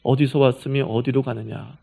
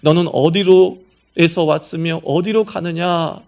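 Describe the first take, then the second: First: Gentle plain question. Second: Louder, slow, weighty declamation; grand solemn question. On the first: Shown as a demonstration. Preacher retelling God's question to Hagar in plain words, gently. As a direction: bring the grand question down to a caring ask. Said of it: "쉽게 얘기하니까 이거더라고요". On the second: Acted. Preacher quoting God's question to Hagar as solemn philosophy, grandly. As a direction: intone it like a lofty philosophical riddle.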